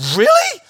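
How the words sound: It sounds shocked and disbelieving.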